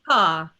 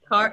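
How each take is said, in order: First: It has a relaxed British R, no retroflex. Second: It has an American R, tongue pulled back.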